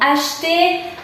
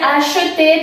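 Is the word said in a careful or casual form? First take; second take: casual; careful. First: The word is said in a shorter, casual form. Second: The word is said in a fuller, careful form. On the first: "en la realidad pronunciamos más como acheter" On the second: "Podría ser acheter"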